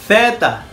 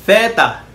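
First: The word begins with a th sound. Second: The same.

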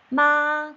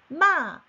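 First: The pitch stays high and level. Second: The pitch falls sharply from high to low. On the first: It means mother. "엄마가 돼요" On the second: It means to scold. "욕하다가 됩니다"

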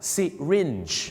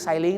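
First: It begins with 'si' and ends in 'rinj'. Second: It begins with 'sai' and ends in 'ling'. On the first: The speaker calls it right. "ที่จริงแล้วนะครับคำว่าเข็มฉีดยาเขาออกเสียงว่า" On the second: The speaker calls it wrong. "ออกเสียงว่าไซลิงไซลิง"

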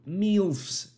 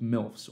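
First: The word is said in an odd, imitated way. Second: The word is said in a plain, ordinary way.

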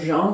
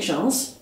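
First: The final S sound is left silent. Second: The final S sound is pronounced. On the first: "depending whether you want to pronounce the S on her surname or not" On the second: "depending whether you want to pronounce the S on her surname or not"

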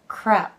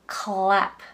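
First: The consonant after k sounds like a Japanese R. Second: The consonant after k is a clear L. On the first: The speaker calls it wrong. "これ結構no no no no no" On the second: The speaker calls it right. "舌の先が上の前歯の下にちょうど当たってclap"

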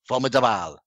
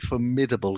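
First: The word is said with a French accent. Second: The word is said with an English accent.

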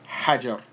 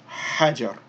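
First: The word ends on a bare r sound. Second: The word ends on a bare r sound.

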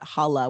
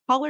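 First: The word ends with an open 'ah' sound. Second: The word ends with an 'er' sound. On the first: It suggests a casual friendly greeting. The speaker calls it right. "but holla with an A" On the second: It suggests a loud shout. The speaker calls it wrong. "not ER"

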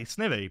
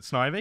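First: The first vowel sounds like 'it'. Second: The first vowel sounds like 'eye'. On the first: "it's quicker" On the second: "because of Ivy, like the plant"

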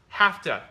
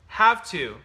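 First: The words blend into a reduced 'hafta' form. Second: Both words are said fully and separately. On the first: "but what you hear is" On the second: "you expect these words"

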